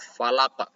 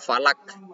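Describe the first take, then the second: First: The word ends with a deep throaty q sound. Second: The word ends with a light front k sound. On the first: The speaker calls it right. "tapi qaf falaq" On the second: The speaker calls it wrong. "bukan falak"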